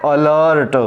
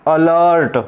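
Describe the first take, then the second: Both takes have the same delivery.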